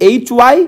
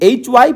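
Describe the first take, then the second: No difference in how they are said.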